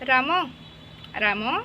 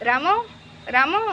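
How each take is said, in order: First: The name is called out fairly loudly. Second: The name is shouted very loudly. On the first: "ଏମିତି ଲାଉଡ଼ଲି ଡାକିଲ" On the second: "ଜୋରସେ ରାମ ରାମ ଏମିତି କ'ଣ ଜୋରସେ ଡାକିବ"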